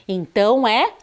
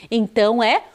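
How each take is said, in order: Both takes have the same delivery.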